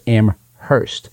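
It is said with the New Hampshire pronunciation. This is how locals in New Hampshire say it. "In New Hampshire, we pronounce it Amherst"

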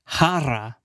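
It is said with a Spanish pronunciation. "in Spanish, it's jarra"

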